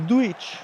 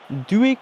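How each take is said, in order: First: The name is pronounced in a Croatian way. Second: The name is pronounced in a French way. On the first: "authentic Croatian is a Duich" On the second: "I think he said the French way was like Duik"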